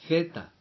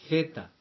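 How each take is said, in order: No difference in how they are said.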